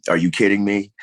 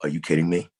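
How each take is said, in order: First: Louder, higher repeat of the question; rising disbelief. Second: Retold disbelief, said close to his normal voice; a first, half-whispered-in-spirit "are you kidding me"; stunned disbelief. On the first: Retold or imitated. Actor retelling the news of landing the role, excited disbelief. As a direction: let the disbelief burst out the second time. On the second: Actor recalling the casting call, mild disbelief. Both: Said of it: "and I'm like".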